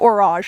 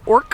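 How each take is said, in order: First: The word ends with a soft zh sound. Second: The word ends with a hard k sound. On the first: The speaker calls it right. "this is called orage" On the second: The speaker calls it wrong. "I pronounced it orc for the longest time"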